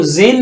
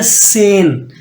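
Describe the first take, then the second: First: जेन with a z start, the wrong way; wrong pronunciation. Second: सेन with an s start, the right way; right pronunciation. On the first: Teacher warns students off wrong z in German ten. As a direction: show the mistake जेन. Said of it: "इसको जेन नहीं पढ़ना". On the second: Teacher gives correct German ten after the wrong one. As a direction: say सेन with a clear s. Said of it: "इसको पढ़ना है सेन". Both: Shown as a demonstration.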